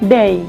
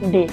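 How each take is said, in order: First: The vowel glides toward an ee sound. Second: The vowel is a short plain e sound. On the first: The speaker calls it right. "কিন্তু না, এটা হবে ডেই ডেই" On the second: The speaker calls it wrong. "আমরা কি বলতাম ডে"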